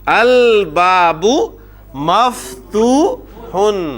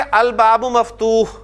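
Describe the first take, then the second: First: The final -un ending is fully pronounced. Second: The word stops without the final -un ending. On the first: This shows the grammatical case ending. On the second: This is how it is said in normal speech.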